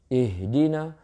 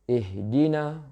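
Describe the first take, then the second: No difference in how they are said.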